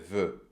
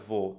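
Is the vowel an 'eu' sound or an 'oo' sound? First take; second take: eu; oo. First: The vowel is a front rounded eu sound. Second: The vowel is a back rounded oo sound. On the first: The speaker calls it right. "é veut" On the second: The speaker calls it wrong. "Não é vou"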